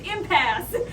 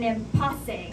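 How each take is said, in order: First: The word is pronounced the usual English way. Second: The word is pronounced as if it were Spanish. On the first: The speaker calls it right. "it's impasse" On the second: The speaker calls it wrong. "Is that what you think is the, the way you pronounce the Spanish word for Mexican standoff?"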